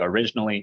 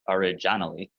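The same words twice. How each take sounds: First: The stress is on the second syllable. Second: The stress is on a different syllable. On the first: The speaker calls it right. "You say originally" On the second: The speaker calls it wrong. "you don't say originally. That would sound bizarre"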